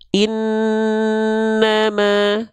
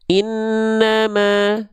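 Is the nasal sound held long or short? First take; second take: long; short. First: The nasal sound is held slowly for longer. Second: The nasal sound is cut short and rushed. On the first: The speaker calls it right. "Dua harokat untuk gunnah atau dengung itu lambat" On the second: The speaker calls it wrong. "itu itu tergesa-gesa"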